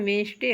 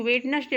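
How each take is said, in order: First: वेंसडे said as wens-day with the d silent; the proper वेंसडे, no d sound; वेंसडे clipped to two syllables, wens-day; correct pronunciation. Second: वेडनेसडे read out letter by letter as wed-nes-day; the misreading वेडनेसडे with every letter sounded; वेडनेसडे spelled out in full, as some pupils wrongly say it; wrong pronunciation. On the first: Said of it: "इसका शुद्ध उच्चारण वेंसडे होता है". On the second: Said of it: "कुछ लोग वेडनेसडे पढ़ दे". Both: Shown as a demonstration.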